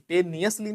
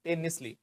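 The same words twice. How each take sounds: First: "tenuously" as TAY-nee-us-lee; four syllables in "tenuously", with nee-us; rejected pronunciation. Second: "tenuously" as TEN-is-lee; three syllables in "tenuously", no nee-us; corrected pronunciation. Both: Shown as a demonstration. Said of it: "tenuously नहीं".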